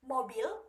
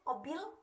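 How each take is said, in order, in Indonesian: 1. Seluruh kata diucapkan dengan kedua suku katanya. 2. Kata itu diucapkan dengan bunyi pertamanya hilang.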